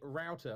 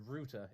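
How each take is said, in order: First: It is said with an American pronunciation. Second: It is said with a British pronunciation. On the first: "we call that a router" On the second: "if you're British"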